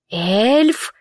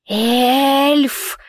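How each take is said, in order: First: Эльф asked with a rising tune; Эльф with a rising, unsure tune; questioning. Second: A hissed, higher creature cry; Эльф hissed sharply. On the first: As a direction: make the word a puzzled question. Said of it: "В голосе его звучал вопрос". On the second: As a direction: spit the word out like a hiss. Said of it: "прошипело существо". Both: A narrator's reading.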